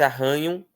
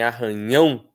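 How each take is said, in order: First: Arranham with ran strong, ending weak; stress on RAN. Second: Arranhão with the final nhão strong; stress on ÃO. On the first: Teacher comparing two similar words, stress on RAN. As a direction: lean on the middle of arranham. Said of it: "a sílaba tônica seria o ran". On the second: Teacher comparing two similar words, stress on ÃO. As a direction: land hard on the end of arranhão. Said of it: "a sílaba tônica é o ão". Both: Shown as a demonstration.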